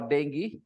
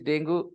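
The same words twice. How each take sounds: First: The word is said the English way. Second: The word is said the local, non-English way.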